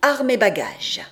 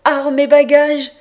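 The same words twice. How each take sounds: First: Mildly raised announcement, falling at the end; measured shout down a corridor; called-out order. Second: Loud, high-pitched shout; full-voiced cry, pitched well up; shouted order. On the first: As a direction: call out the release order. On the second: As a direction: bellow the release order down the corridor. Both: A narrator's reading. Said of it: "On vient de me crier".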